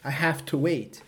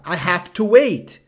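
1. É dito rápido, com "have to" juntas. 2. Cada palavra é dita devagar e completamente. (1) "mas nós falamos rápido. Parece" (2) "É assim que nós falaríamos"

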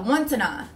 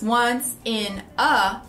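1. As palavras se juntam e são ditas rapidamente, como uma unidade só. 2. Cada palavra é dita separadamente, com pausas. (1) "Tudo rápido. fica once in a" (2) "Essas três palavras"

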